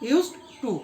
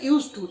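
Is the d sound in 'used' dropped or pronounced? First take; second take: pronounced; dropped. First: The d sound in 'used' is clearly pronounced. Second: The d sound merges away into 'to'.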